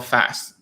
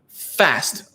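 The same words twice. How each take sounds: First: The F sound is small and light. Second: The F sound is strongly exaggerated. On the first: The speaker calls it right. "You go fast" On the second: The speaker calls it wrong. "you do not say fast like that"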